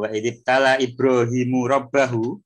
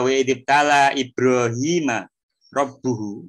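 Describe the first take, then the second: First: Ibrahim ends in u, and rabb ends in a. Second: Ibrahim ends in a, and rabb ends in u. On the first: Ibrahim tests his Lord. The speaker calls it wrong. "Ini bacanya jangan kebalik ya" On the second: His Lord tests Ibrahim. The speaker calls it right. "kalau fathah itu menunjukkan maf'ul bih"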